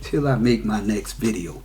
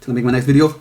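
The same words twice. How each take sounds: First: The phrase is said slowly. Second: The phrase is said quickly.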